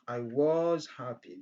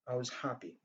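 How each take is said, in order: First: The word 'was' is said in full form. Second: The word 'was' is said in short weak form. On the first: "Au lieu de dire" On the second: "j'ai utilisé la forme courte"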